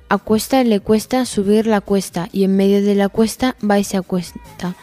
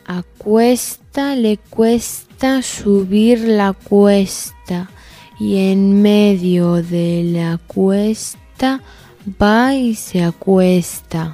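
First: It is said at a medium speed. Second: It is said at a slow speed.

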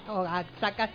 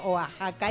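First: The x is said as a ks sound. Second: The x is said as a harsh h sound. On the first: The speaker calls it wrong. "no lea Oaxaca" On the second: The speaker calls it right. "en México la X se pronuncia J"

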